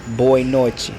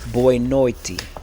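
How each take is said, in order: First: The t in noite sounds like ch. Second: The t in noite sounds like t. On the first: This is how people from Rio say it. "I have that accent from Rio de Janeiro. So I'm used to saying" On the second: This is how people further north say it. "instead of saying the chi, they saying the t"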